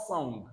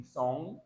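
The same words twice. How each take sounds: First: "song" with a hard g at the end; "song" released into an audible g; wrong sounded g. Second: "song" ending on ng, no hard g; "song" closed on the nasal; silent g. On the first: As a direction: mispronounce "song" as song-g. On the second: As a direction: keep the g of "song" unsounded. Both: Shown as a demonstration. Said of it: "Not song".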